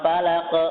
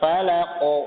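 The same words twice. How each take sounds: First: The final consonant is thin and light. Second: The final consonant is thick and heavy. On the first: The speaker calls it wrong. "bukan falaq" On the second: The speaker calls it right. "Tebal falaq"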